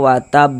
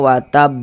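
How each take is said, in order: First: The word stops on a bare b sound. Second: The same.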